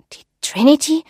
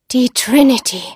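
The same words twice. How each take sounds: First: Higher, rising, wondering question; hesitant echo of a ship's name; startled question. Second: Loud, ominous proclamation of a ship's name; old seer's loud pronouncement; dramatic exclamation. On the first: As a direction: ask it haltingly, pitch lifting in surprise. Marie asks, startled by the name. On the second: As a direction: cry it out as a dread announcement. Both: Acted.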